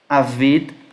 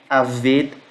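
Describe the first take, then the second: Both takes have the same delivery.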